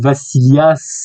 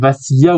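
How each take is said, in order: First: The final s is clearly pronounced. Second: The final s is not pronounced. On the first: "dans le sud on prononce le S" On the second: "je sais pas si c'est Vassilia ou Vassilias"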